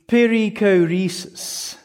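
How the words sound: It is said with an English pronunciation. "if you want to say it in English"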